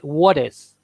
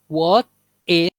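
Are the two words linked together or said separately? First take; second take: linked; separate. First: The words are linked, the t sounding like d. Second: The two words are said separately, with a clear t. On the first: The speaker calls it right. "se une what is ... la E convierte en una D prácticamente" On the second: The speaker calls it wrong. "No dice what is"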